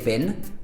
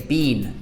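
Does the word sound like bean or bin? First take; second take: bin; bean. First: The vowel is short, like in bin. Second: The vowel is long, like in bean. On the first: The speaker calls it wrong. "Americans would say bin" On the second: The speaker calls it right. "We say been"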